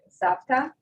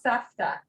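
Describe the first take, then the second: First: The middle consonant is a P sound. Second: The middle consonant is an F sound. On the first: "She uses the P instead of the F" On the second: "the actual pronunciation is with a fe"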